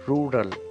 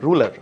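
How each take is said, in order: First: Both R sounds are fully pronounced. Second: It sounds like the word ruler. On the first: The speaker calls it right. "the real pronunciation of this word is rural" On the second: The speaker calls it wrong. "mispronounced as ruler, as in R U L A R"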